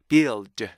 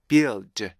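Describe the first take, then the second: No difference in how they are said.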